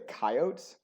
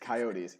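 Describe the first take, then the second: First: The word has a rural regional pronunciation. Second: The word has its standard pronunciation. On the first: The speaker calls it wrong. "Some people say coyotes, particularly in more rural areas" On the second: The speaker calls it right. "The correct way to say it is coyotes"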